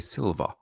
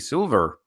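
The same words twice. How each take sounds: First: It is said in a southeast British accent. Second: It is said in a southwest British accent. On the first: "If you're from the southeast, you would say silver" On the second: "If you're from the southwest, you'd say silver"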